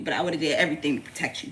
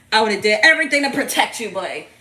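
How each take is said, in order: First: Said in the usual way. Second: Emphatic vow. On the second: Real, not acted. Mother vowing to protect her baby, loud and emphatic. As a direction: belt out the promise to protect.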